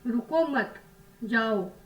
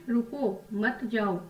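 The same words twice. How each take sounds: First: The pause comes right after the middle word. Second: The pause comes right after the first word. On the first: The listener is told to go. "विराम देके बात की" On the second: The listener is told not to go and to stay. "मतलब आप मत जाओ, आप यहीं रुको"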